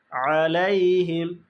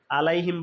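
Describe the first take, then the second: First: "আলাইহিম" slow, opening from the squeezed throat; correct throat ain. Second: "আলাইহিম" quick, with a plain initial a; common mispronunciation. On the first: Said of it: "আইনের উচ্চারণ আ". ("আলাইহিম" কণ্ঠের আইন দিয়ে ধীরে) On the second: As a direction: rattle off "আলাইহিম" without the throat ain. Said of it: "আলাইহিম বলে ফেলি". ("আলাইহিম" আইন ছাড়া, তাড়াতাড়ি) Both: Shown as a demonstration.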